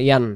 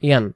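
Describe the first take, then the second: No difference in how they are said.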